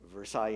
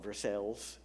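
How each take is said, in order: First: The name is pronounced the French way. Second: The name is pronounced the local Indiana way. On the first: This is the usual way to say the name. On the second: This is how locals say the name.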